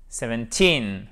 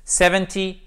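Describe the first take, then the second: First: Put-on seventeen, lower, falling, stress on "teen". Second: Seventy, higher and louder, stress on "Sev". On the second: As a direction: hit the first syllable of Seventy. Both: Shown as a demonstration. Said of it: "c'est la même chose".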